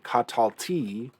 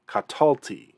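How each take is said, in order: First: The stress is on the last syllable. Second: The stress is on the second-to-last syllable. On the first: The speaker calls it wrong. "we don't want to say katalti" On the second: The speaker calls it right. "we want to say katalti"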